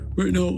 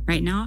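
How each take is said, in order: First: It is spoken with a lowered larynx. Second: It is spoken with a raised larynx. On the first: "I have a lowered larynx" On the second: "I have a raised larynx"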